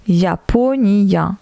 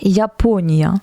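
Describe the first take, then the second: First: Japonia said slowly with a clear "ya" ending, ja-po-ni-ya; ya sound spelled out. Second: Said in the usual way. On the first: Shown as a demonstration. Teacher showing French learners the Ya sound, slow and careful. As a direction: stretch Japonia out so the final "ya" rings clearly. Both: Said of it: "se prononce Ya".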